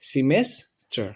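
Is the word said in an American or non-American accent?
American. It is said in an American accent.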